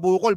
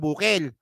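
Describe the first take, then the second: First: The last vowel is said as an o. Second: The last vowel is said as an e.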